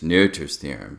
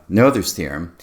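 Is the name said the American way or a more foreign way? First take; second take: more foreign; American. First: The name has a more foreign, non-American vowel. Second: The name has a plain American English vowel. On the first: The speaker calls it right. "Maybe it's Noether's, Noether's theorem, something like that" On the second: The speaker calls it wrong. "the standard American pronunciation of"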